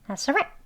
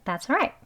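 First: The word 'all' is almost silent. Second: The word 'all' is reduced to a weak 'uh'. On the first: "더 빨리 발음하게 되면" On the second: "아주 빨리 발음하게 되면"

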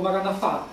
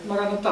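First: The consonant before the last vowel is 'f'. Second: The consonant before the last vowel is 't'.

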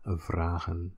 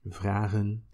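First: The R is rolled with the tongue tip. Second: The R is made in the throat, French-like. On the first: This is the most standard and common way. "standard would be the rolling R" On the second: This is how it sounds further south. "it sounds kind of French-ish"

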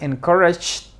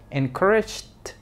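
First: The middle j sound is heavy; final t is lost. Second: The middle j sound is light; final t is heard. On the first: The speaker calls it wrong. "No digas encouraged, porque no va a sonar la T" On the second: The speaker calls it right. "dale menos énfasis al, a la che"

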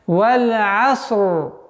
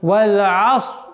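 First: The final r sound is clearly pronounced. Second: The final r sound is left out. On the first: The speaker calls it right. "правильное произношение" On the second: The speaker calls it wrong. "Одна из самых также из распространенных ошибок «Валь-Аср». Буква «Ра» не произносится"

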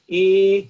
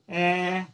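First: The vowel sounds like a pure, strict A. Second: The vowel sounds like an open eh.

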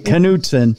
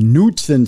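First: The name begins with a K sound. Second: The name begins with an N sound. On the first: This is how people in Minnesota say it. "there's a K in it. So we say Knutson" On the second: This is how people elsewhere say it. "It might be Knutson for all the rest of you"

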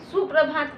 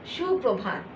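First: The word begins with a plain 's' sound. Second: The word begins with an 'sh' sound. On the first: This is the Hindi way of saying it. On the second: This is the Bengali way of saying it.

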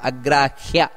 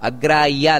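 First: The h sound in the middle is heard. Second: The h sound in the middle is missing. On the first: The speaker calls it right. "ಹಕಾರ ಬರಬೇಕಲ್ಲಿ" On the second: The speaker calls it wrong. "ಇದು ತಪ್ಪು, ಅಗ್ರಾಹ್ಯ ಅಲ್ಲ"

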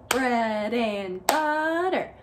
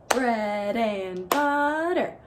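No difference in how they are said.

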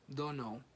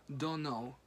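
The two takes are said the same way.

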